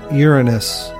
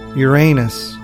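First: The stress is on the first syllable. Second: The stress is on the second syllable. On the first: This is the form astronomers prefer. "with the stress on the first syllable" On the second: This is the everyday colloquial form. "with the stress on the second syllable and the long A sound"

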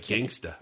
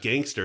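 First: The word ends with an open 'ah' sound. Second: The word ends with an 'er' sound. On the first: The speaker calls it right. "It's like gangsta" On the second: The speaker calls it wrong. "You're not even saying it right. It's not gangster"

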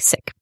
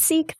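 First: The word is said the Punjabi way. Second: The word is said the British way. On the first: "the Punjabi word is more like Sikh" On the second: "with a British accent, it's pronounced Sikh"

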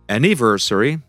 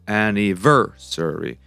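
First: The stress is not on the third syllable. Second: The stress is on the third syllable. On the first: The speaker calls it wrong. "Which is not correct either" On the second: The speaker calls it right. "So the stress falls on the third syllable"

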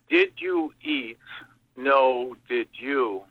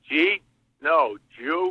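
First: Each word is pronounced fully and separately. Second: The words are swallowed into one short syllable.

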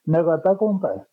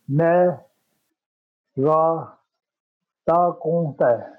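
First: It is said at normal conversational speed. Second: It is said slowly and carefully.

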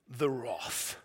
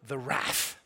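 First: It is said in the speaker's own non-American accent. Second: It is said in an American accent.

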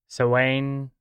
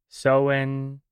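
The two takes are said the same way.

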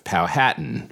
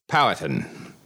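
First: The stress is on the second syllable. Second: The stress is not on the second syllable. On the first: The speaker calls it wrong. "my pronunciation of Powhatan, suggesting that the emphasis on the second syllable is both wrong and grating" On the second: The speaker calls it right. "the correct pronunciation is Powhatan"

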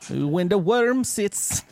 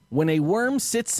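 First: It is said in a put-on Jamaican accent. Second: It is said in the speaker's ordinary accent.

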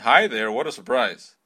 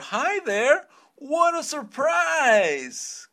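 First: It is said flat, without intonation. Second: It is said with lively, surprised intonation.

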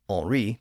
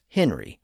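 First: The name is said with French pronunciation. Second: The name is said with English pronunciation.

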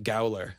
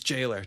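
First: The word starts with a hard g sound. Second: The word starts with a j sound. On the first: The speaker calls it wrong. "I pronounced it gowler and then figured out that I was wrong" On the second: The speaker calls it right. "So it's jailer, just so you know"

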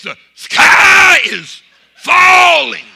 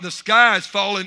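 First: It is said in an exaggerated, dramatic way. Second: It is said in a plain, calm way.

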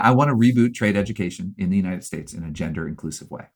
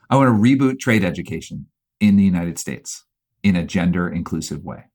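First: It is spoken at a normal, quicker pace. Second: It is spoken at a slower, deliberate pace.

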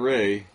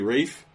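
First: The name ends on a vowel, no f sound. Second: The name ends with an f sound. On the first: The speaker calls it wrong. "not Ray" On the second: The speaker calls it right. "It's actually Rafe"

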